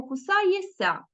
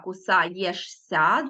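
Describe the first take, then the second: First: "кусаєся" with ш merged into long сь; natural spoken form "кусаєся", higher pitch; spoken pronunciation. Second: "кусаєшся" stretched slowly with ш and ся apart; careful spelled-out "кусаєшся"; spelling pronunciation. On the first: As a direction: say it as it sounds, кусаєсся. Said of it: "вимовляємо". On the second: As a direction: read "кусаєшся" as written, very slowly. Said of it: "Зверніть увагу, без м'якого знака". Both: Shown as a demonstration.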